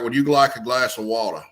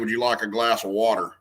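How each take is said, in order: First: It is said in an elegant aristocratic Southern accent. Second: It is said in a plain everyday accent. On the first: This is how an older generation talked. "it was that elegant, aristocratic Southern accent" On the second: This is how people talk today. "today we we might say"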